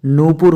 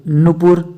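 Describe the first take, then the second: First: नुपुर with a long "noo". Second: नुपुर with a quick "nu"; short u. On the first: Teacher correcting students, long oo in नुपुर. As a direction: stretch नुपुर into "noopur". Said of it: "होता है". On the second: Teacher showing the error, short u in नुपुर. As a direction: keep the first u short in नुपुर. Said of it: "नुपुर होता है". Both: Shown as a demonstration.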